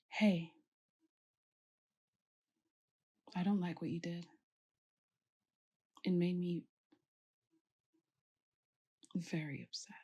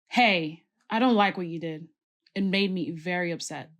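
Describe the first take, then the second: First: The voice sounds calm but still displeased. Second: The voice sounds harsh and very angry. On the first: The listener understands and feels sorry. The speaker calls it right. "you were still mad, but I understood" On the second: The listener is frightened by the anger. The speaker calls it wrong. "you were really, really, really angry at me"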